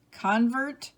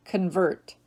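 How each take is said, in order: First: CON-vert, first syllable stressed, rising. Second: Kun-VERT, second syllable stressed. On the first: Teacher reading word list to students, convert as CON-vert. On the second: Teacher giving other pronunciation, convert as kun-VERT. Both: Shown as a demonstration. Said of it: "give you both pronunciations".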